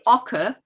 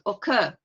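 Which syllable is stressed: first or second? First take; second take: first; second. First: The stress is on the first syllable. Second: The stress is on the second syllable. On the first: The speaker calls it wrong. "You wouldn't say" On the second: The speaker calls it right. "but occur. ... the second one"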